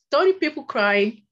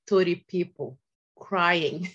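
First: Higher and louder, punching thirty; loud, incredulous retelling; emphatic repeat. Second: Said in the usual way. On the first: Retold or imitated. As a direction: say it again with amazed emphasis.

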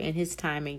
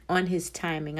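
First: "in his timing" with a clear "in", a little softer; self-correction, "in his timing"; corrected phrase. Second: Says "on" instead of "in": "on his timing"; quick misspoken "on his timing" before correcting; slip of the tongue. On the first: Podcaster corrects herself to listeners, "in his timing" said carefully. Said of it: "I'm sorry". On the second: Podcaster misspeaks about God's timing, says "on his timing". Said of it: "I'm sorry, in his timing". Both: Real, not acted.

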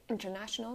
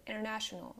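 First: "international" with a clear T after N; T sounded. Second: "international" like "innernational"; silent T. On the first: Teacher showing the wrong way, "international" with full T. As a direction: release the T in "international". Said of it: "You don't say international". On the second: Teacher showing American English, "international" with silent T. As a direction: drop the first T in "international". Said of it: "the T is silent". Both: Shown as a demonstration.

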